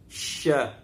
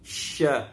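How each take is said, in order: First: It is blended into one syllable, sya. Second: It is blended into one syllable, sya.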